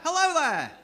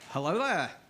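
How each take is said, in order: First: The greeting sounds cheerful. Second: The greeting sounds creepy.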